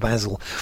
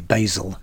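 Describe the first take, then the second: First: The name is said with a non-American pronunciation. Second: The name is said with an American pronunciation. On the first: The speaker calls it wrong. "not Basil" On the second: The speaker calls it right. "And say, Basil"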